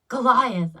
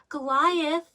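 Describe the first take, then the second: First: It sounds heavy and possessive, like staking a claim. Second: It rises on the last syllable, like a hopeful question. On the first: She feels his name belongs to her. "there's weight, there's history, but there's also ownership" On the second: She hopes this love can be real. "this tiny rising inflection on the last syllable"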